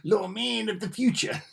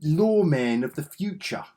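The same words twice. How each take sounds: First: High, rising announcer flourish; playful trailer voice; dramatic title read. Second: Louder, higher dramatic title announcement; mock movie-trailer read; hammed-up title voice. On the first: Pretend. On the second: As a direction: boom it out like a trailer voice. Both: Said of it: "Don't know why I said it like that".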